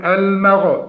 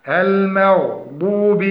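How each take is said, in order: First: "almegh" with a wrong echoing bounce on the ghayn; bouncing ghayn. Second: المغضوب said slowly with a steady, moderately heavy ghayn; correct ghayn. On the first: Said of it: "فيقول". (قلقلة خاطئة للغين) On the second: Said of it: "فنقول". (تفخيم الغين بدرجة ثانية) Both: Shown as a demonstration.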